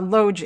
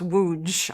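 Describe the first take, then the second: First: The name begins with an L sound. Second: The name begins with a W sound. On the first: The speaker calls it wrong. "I just want to say Lodge" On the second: The speaker calls it right. "it's pronounced Wuj"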